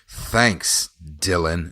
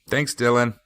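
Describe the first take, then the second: First: It sounds even more heavily sarcastic. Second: It sounds tired and somewhat sarcastic.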